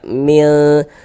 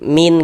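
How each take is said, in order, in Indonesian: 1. Bunyi n samar dan sengau, ditahan sebentar. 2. Bunyi n diucapkan penuh dan jelas. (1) "Sehingga ini kita baca mil" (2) "min gitu jangan"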